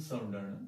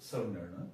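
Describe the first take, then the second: The two takes are said the same way.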